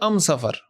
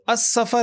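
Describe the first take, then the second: First: The article is pronounced with an M sound. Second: The article is pronounced with an S sound. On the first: This is a tribe's regional dialect. "वो उसको पढ़ते थे अम सफ़र" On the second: This is the standard form. "अस सफ़र है"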